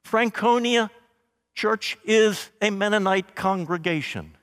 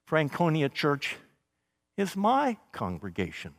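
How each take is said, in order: First: Said in the usual way. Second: Softer, intimate "is my congregation"; quiet the voice and dwell on "my"; belonging in the word "my"; stress on my. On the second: Shown as a demonstration. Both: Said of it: "You hear how it changes".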